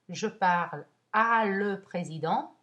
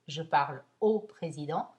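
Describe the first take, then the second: First: Preposition and article are said as two words. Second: Preposition and article merge into one word. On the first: The speaker calls it wrong. "Au président est vraiment la même chose que à le" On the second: The speaker calls it right.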